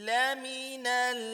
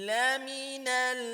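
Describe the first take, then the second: The two takes are said the same way.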